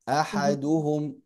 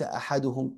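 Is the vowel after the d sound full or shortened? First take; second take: full; shortened. First: The vowel after the d is full length. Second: The vowel after the d is cut short. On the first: The speaker calls it right. "أحدهم وليس أحدهم" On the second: The speaker calls it wrong. "وليس أحدهم"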